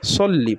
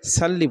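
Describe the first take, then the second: First: The first vowel is a rounded, heavy 'o'. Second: The first vowel is an open, light 'a'. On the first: The speaker calls it right. "সল্লি পড়বেন" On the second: The speaker calls it wrong. "কেউ সাল্লি বলবেন না"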